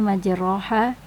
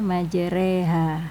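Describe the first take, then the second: First: The vowel after r is an open a. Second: The vowel after r leans toward e. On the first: The speaker calls it wrong. "Tulisannya majroha" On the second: The speaker calls it right. "tapi kita baca majreha"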